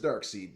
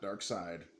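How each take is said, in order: First: The second syllable sounds like 'seed'. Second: The second syllable does not sound like 'seed'. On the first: The speaker calls it right. "his name is Darkseid" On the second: The speaker calls it wrong. "not Darkseid"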